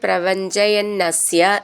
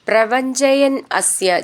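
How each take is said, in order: First: The two words are joined into one. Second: The two words are said separately.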